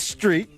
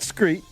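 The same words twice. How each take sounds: First: The word begins with an 'str' sound. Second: The word begins with an 'skr' sound. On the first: The speaker calls it right. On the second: The speaker calls it wrong.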